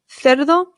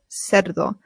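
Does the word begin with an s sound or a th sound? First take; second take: th; s. First: The first sound is a th sound. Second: The first sound is an s sound. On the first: This is how it is said in Spain. "Spain Spanish" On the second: This is how it is said in Latin America. "Latin American Spanish"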